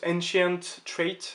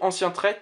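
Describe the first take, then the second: First: The term is read with English pronunciation. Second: The term is read with French pronunciation. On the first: The speaker calls it right. "ça se prononce Ancient Trait" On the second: The speaker calls it wrong. "ça se prononce pas comme ça en plus"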